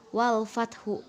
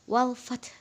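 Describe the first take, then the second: First: The word ends with an added u vowel. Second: The word ends on a soft final consonant. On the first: The speaker calls it wrong. "bukan wal fathu" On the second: The speaker calls it right. "huruf terakhirnya itu dibaca lemah"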